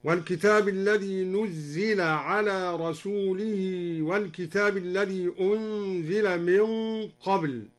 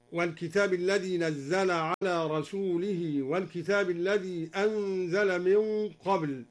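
First: U on the first letter, i on the zāy in "نزل" and "أنزل"; Duri passive reading. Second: Said in the usual way. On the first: Shown as a demonstration. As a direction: chant "نزل" as nuzzila and "أنزل" as unzila. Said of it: "هكذا".

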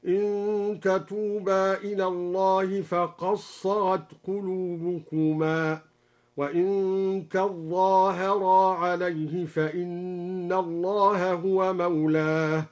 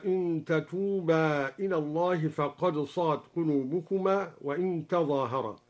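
First: Slow chant, "فقد صغت" as faqas-saghat, doubled ظ in "تظاهرا"; merged consonants. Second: Said in the usual way. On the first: Shown as a demonstration. Sheikh demonstrates al-Duri's reading, slow chant merging "فقد صغت". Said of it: "قرأ الدوري بإدغام الدال في الصاد".

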